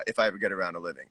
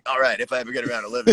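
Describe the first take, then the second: First: Said in the usual way. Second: Fast radio DJ announcement. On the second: Pretend.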